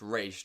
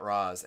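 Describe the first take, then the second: First: The name ends with an 'sh' sound. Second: The name ends with a 'z' sound. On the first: The speaker calls it right. "She specifically said that it's pronounced Raish" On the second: The speaker calls it wrong. "not Raz"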